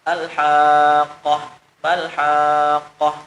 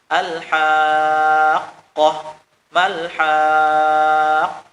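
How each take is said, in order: First: The doubled q is said softly and unclearly. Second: The doubled q is pressed firmly and clearly. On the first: The speaker calls it wrong. "terlalu lembut kada nampak" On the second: The speaker calls it right. "supaya nampak"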